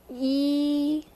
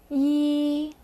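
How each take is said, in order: First: The pitch stays long, high and level. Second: The pitch stays long, high and level.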